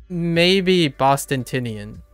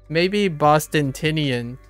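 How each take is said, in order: No difference in how they are said.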